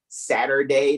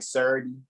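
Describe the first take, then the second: First: The word is said in full, three syllables. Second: The word is clipped into two short syllables. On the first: "people from near the Baltimore Corporation don't say Saturday" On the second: "they'll be like Surdy"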